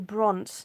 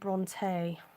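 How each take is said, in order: First: The name is said the local Texas way. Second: The name is said the literary way. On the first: It names the town in Texas. The speaker calls it right. "you text and say Bront" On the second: It names the literary sisters. The speaker calls it wrong. "not the true literary way of Bronte sisters"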